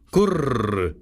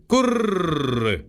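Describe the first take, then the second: First: Pigeon coo. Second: „gurr" cooed higher, falling away; a rising second coo, „gurr", dropping at the end; higher pigeon coo. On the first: Wood pigeons cooing to Gerda from their perch, cooing. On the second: Wood pigeons cooing to Gerda, a higher coo. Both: Acted. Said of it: "Da sagten die Waldtauben".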